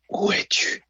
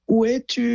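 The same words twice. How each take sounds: First: It is whispered breathily. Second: It is shouted loudly.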